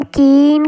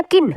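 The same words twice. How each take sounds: First: कीन with a long drawn-out ee; long vowel. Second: किन with a quick short i; short vowel. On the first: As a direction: hold the ee in कीन. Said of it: "देर से हम कीन करके बोल रहे हैं". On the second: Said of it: "ये आवाज़ जल्दी दे रहा है". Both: Shown as a demonstration.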